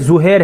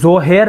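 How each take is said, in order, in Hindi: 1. पहला स्वर 'u' जैसा सुनाई देता है। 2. पहला स्वर 'o' जैसा सुनाई देता है। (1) "बल्कि ज़ुहैर है इसका सही तलफ़ुज़" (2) "ज़ोहैर नहीं है"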